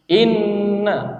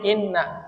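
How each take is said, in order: First: It is said slowly with a held nasal sound. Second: It is said quickly with a clipped nasal sound. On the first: The speaker calls it right. "Tidak cepat ya" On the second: The speaker calls it wrong. "Cepat itu contohnya"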